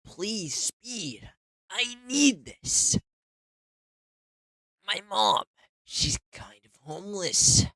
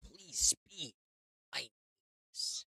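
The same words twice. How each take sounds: First: High, loud, drawn-out begging; loud desperate pleading. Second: Quiet, hushed begging plea; barely voiced, small plea; soft pleading. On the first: Acted. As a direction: wail the plea out loud. Repeated plea, loud take. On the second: Repeated plea, soft take.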